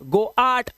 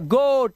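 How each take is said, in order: First: The vowel is split into o and a. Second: The vowel is one single o sound. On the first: The speaker calls it wrong. "ऐसा कुछ नहीं पढ़ते" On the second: The speaker calls it right. "ओ ए का उच्चारण ओ ही करना है आपको"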